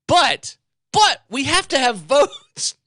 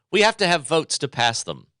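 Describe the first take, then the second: First: High, slow, loud mock Pelosi voice. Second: Said in the usual way. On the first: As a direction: drag out "we have to have votes" in a parody of her. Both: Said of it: "we're gonna pass both bills".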